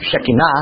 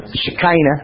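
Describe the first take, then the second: First: Shekinah said she-KEE-nah, stress on the middle; Hebrew-style Shekinah. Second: Shekinah said she-KY-nah, slow and drawn out; southern preacher pronunciation. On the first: Teaching the class the Hebrew way: Shekinah as she-KEE-nah. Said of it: "Uh, or Shekinah". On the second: Showing the class how southern preachers say it: slow she-KY-nah. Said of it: "as it's used by so many southern preachers". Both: Shown as a demonstration.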